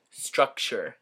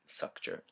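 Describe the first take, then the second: First: Said in the usual way. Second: "structure" slipped out without its first T and R; slip of the tongue. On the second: Real, not acted. Student stumbling over a term on video, slip of the tongue. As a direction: fumble "structure" as "suck-cher".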